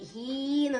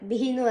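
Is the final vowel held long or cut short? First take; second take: long; short. First: The final vowel is held long. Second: The final vowel is cut short. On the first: The speaker calls it right. "ബിഹീന്നൊന്നും പറയും" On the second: The speaker calls it wrong. "ബിഹിന്ന് പറയൂലല്ലോ"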